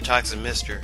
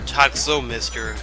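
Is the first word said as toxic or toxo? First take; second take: toxic; toxo. First: The first word ends in an ik sound. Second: The first word ends in an oh sound. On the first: The speaker calls it wrong. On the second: The speaker calls it right.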